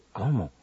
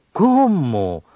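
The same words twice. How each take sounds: First: "¿Cómo?" much lower and softer; question. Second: Louder "¿Cómo?" falling in amazement; exclamation. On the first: Radio teacher demonstrating a question, asking softly. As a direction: ask how, quietly. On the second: Radio teacher demonstrating admiración, exclaiming. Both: Shown as a demonstration. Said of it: "en preguntas o admiración".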